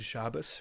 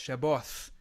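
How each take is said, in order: First: The word ends with an S sound. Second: The word ends with a TH sound. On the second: "in a Yemenite accent"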